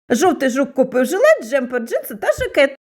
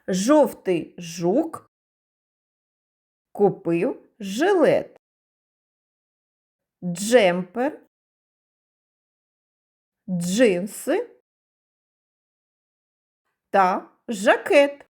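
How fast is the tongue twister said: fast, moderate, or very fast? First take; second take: very fast; moderate. First: It is said at a very fast pace. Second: It is said at a moderate, ordinary pace.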